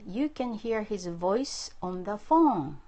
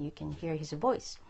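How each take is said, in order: First: Slow, measured dictation for learners; slow model sentence. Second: Said in the usual way. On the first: Shown as a demonstration. Teacher giving students a sentence to translate, slow dictation. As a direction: say it slowly, word by word.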